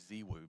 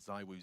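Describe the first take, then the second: First: The name is said the French way. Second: The name is said the usual English way.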